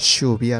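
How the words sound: It uses the general Argentine pronunciation.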